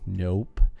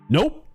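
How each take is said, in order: First: It is said slowly. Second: It is said fast.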